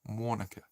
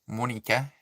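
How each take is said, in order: First: It is said in the speaker's plain accent. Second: It is said in a broad Australian accent.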